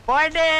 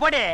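First: Stretched Bodi; drawn-out dismissal. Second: Said in the usual way. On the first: Acted. Man sending the waitress off, drawn-out dismissal. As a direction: hold the end of Bodi long.

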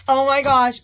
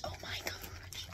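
First: Said in the usual way. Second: Hushed awed whisper. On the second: Real, not acted. Admiring the purse, a hushed whisper. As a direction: breathe it, voiceless. Whispered after loud take.

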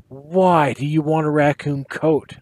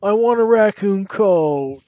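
First: Said in the usual way. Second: Higher, louder, slow wail. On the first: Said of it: "I asked". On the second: Acted. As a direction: wail it like a whining boy. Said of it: "he wailed".

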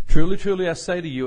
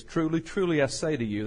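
First: "Truly, truly" burst out much louder and higher; with great emphasis. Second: Said in the usual way. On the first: Shown as a demonstration. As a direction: hit "Truly, truly" hard, like a proclamation. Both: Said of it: "it's with emphasis".

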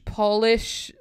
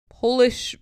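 First: Polish said "PAH-lish" with a short O; polish, O as in doll; polish, as in polishing shoes; shine shoes. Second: Polish said "POH-lish" with a long O; Polish, O as in pole; Polish, the nationality; from Poland. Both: Shown as a demonstration. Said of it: "Why is Polish there twice".

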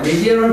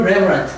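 First: "Reverent" with a long ee, re-VEER-ent; old pronunciation. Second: "reverent" with a short first e, REV-er-ent; changed pronunciation. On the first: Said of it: "이건 한번 들어봐요". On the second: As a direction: stress the first syllable of "reverent". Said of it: "reverent로 바뀌었어요". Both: Shown as a demonstration.

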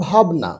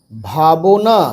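First: ভাবনা joined as bhab-na, middle vowel dropped; quick reading. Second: ভাবনা slow, with the middle vowel sounded; broken into syllables. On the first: Teacher giving pupils the natural form, read quickly. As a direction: say ভাবনা quickly as two syllables. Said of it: "তাহলে এবার তাড়াতাড়ি পড়ো". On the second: Teacher spelling out a word for beginners, syllable by syllable. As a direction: stretch ভাবনা out as bha-bo-na. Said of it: "ভেঙে ভেঙে পড়বে". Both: Shown as a demonstration.

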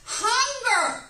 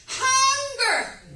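First: Hunger stressed high and loud, falling at the end; preached emphasis on hunger; emphatic hunger. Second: Hunger even higher and louder, falling; climaxing preached hunger; stronger hunger. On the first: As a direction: lean hard into hunger. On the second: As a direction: push hunger further up with more force. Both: Acted. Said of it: "he saw".

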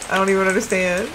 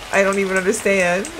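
Both takes have the same delivery.

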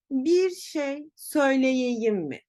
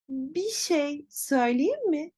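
First: "söyleyeyim" with every syllable, sö-yle-ye-yim, said slowly; careful letter-by-letter "Bir şey söyleyeyim mi"; written-style pronunciation. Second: "söyleyeyim" shortened to "söyleyim", "bir" as "bi"; relaxed "Bir şey söyleyeyim mi" as "bi şey söyleyim mi"; natural spoken form. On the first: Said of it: "Peki nasıl telaffuz edeceğiz". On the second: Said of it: "Hemen bakıyoruz". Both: Shown as a demonstration.

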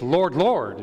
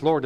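First: Both words of "Lord, Lord" stressed; fervent doubled "Lord, Lord"; fervent repetition. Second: Said in the usual way. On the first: Shown as a demonstration. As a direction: say "Lord, Lord" emphatically, punching each word. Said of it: "is very fervent".

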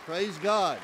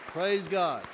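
Both takes have the same delivery.

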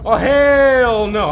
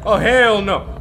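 First: Slow, stretched "hell no" with weight on "hell"; drawn-out refusal. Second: Said in the usual way. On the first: Real, not acted. Streamer refusing to go near the ghost, slow drawn-out "hell no". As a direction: drag out every word of "Oh, hell no!".

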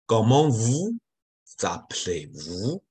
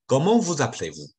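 First: "Comment vous appelez-vous" said slowly, syllable by syllable; slow careful demo. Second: Said in the usual way. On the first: Shown as a demonstration. Teacher modelling the tricky question slowly for students. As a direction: spell it out slowly for beginners. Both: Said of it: "应该是最复杂的一句话".

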